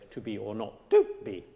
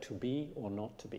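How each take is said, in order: First: Jab the second "to" out of the line, unconvincingly; hammy misplaced stress on the last "to"; false accent on a word. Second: "to be or not to be" softly, with no word jutting out; quiet, joined-up "to be or not to be", no false accent; every word connected. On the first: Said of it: "He won't say". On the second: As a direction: carry each word of "to be or not to be" evenly to the end. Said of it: "every word has to convey the same story". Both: Shown as a demonstration.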